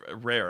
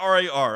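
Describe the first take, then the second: First: The word rhymes with care. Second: The word rhymes with car.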